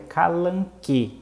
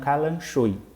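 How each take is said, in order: First: Said with a k sound, ending in e. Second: Said with a sh sound, ending in oi. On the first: The speaker calls it right. "o gênero correto dessa planta que ela encontrou é calanque" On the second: The speaker calls it wrong. "e não calanchoi"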